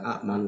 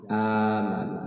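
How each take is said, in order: First: It starts with a glottal stop and a short vowel. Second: It starts with a long, drawn-out vowel. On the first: The speaker calls it wrong. "Lamun dibaca a'man teh berat macana" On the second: The speaker calls it right. "maka diganti ku alif ditangtungkeun jadi panjang"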